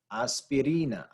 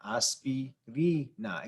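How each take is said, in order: First: Said in the usual way. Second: "aspirina" slowly broken into syllables, rising on "ri"; syllable-by-syllable stress. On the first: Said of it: "That's where the inflection is". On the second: Shown as a demonstration. Teacher showing students where the inflection is, slow stressed syllables. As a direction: draw out "aspirina", lifting the stressed "ri". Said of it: "It goes up right there".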